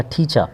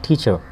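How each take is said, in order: First: टीचर as "teacha", ending on an open vowel; silent R. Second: टीचर with the final r sounded; R pronounced. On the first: Teacher models British English for learners, टीचर with no final r. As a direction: drop the r at the end of टीचर. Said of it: "ना पढ़ें तो बेहतर है". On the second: Teacher shows the optional reading, final r pronounced in टीचर. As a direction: say टीचर ending in an audible "r". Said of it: "आर को पढ़ सकते हैं". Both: Shown as a demonstration.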